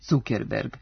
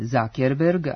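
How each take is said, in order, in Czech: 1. Jméno se čte tak, jak se píše. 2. Jméno se vyslovuje podle angličtiny. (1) "a ne Zuckerberg, kako se može ponekad pročitati" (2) "preziva se Zuckerberg"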